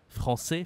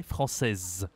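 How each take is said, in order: First: "français" ending on an open vowel, final s silent; masculine ending. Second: "française" with a clearly sounded final z; feminine ending. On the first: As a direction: say "français" with no consonant at the end. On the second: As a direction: let "française" end on a held, buzzing z. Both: Shown as a demonstration. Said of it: "la prononciation est différente".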